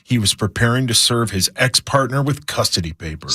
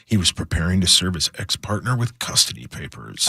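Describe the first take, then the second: First: It is read in a plain, neutral way. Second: It is read in a dark, ominous way. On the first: The speaker calls it wrong. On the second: The speaker calls it right.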